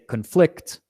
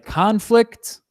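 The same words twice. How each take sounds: First: The stress is on the second syllable. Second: The stress is on the first syllable. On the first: It is used as a verb. "it's a verb" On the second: It is used as a noun. "it's a noun"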